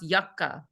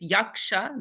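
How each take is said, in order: First: The middle consonants are pronounced as 'kk'. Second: The middle consonants are pronounced as 'ksh'. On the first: This is how Bengalis pronounce it. "they pronounce yakka" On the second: This is the classic Sanskrit pronunciation. "this K S conjunct, this yaksha"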